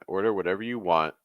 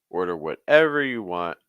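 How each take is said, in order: First: The stress falls on the word want. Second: The stress falls on the word whatever. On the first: The speaker calls it wrong. "that sounds like stress on want" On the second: The speaker calls it right. "I would just really consider stressing whatever"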